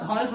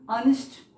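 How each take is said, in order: First: The word begins with an audible H sound. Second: The word begins directly with a vowel sound. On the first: The speaker calls it wrong. "हॉनेस्ट मत पढ़िएगा" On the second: The speaker calls it right. "ऑनेस्ट ऐसे बोलते हैं"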